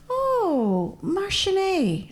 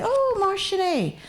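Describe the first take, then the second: First: Oh high, then mar sin é said slowly and high; a slow, raised demo of mar sin é; teaching phrase. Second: Oh, mar sin é said high and a little slow; teaching phrase again. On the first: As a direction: spell out mar sin é slowly with a lifted pitch. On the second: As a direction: mar sin é lifted and drawn out. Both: Shown as a demonstration. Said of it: "I teach everybody to say".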